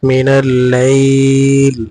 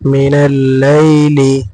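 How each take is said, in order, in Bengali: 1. বাক্যাংশটি হঠাৎ একটি ব্যঞ্জনধ্বনিতে শেষ হয়। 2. বাক্যাংশটি পূর্ণ স্বরধ্বনি দিয়ে শেষ হয়।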